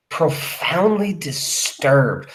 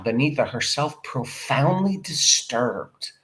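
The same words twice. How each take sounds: First: "Profoundly disturbed" said very slowly, with weight on "Profoundly"; slow stress on profoundly. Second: Said in the usual way. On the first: Shown as a demonstration. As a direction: draw out "Profoundly disturbed" so it sinks in. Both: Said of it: "That means this has really".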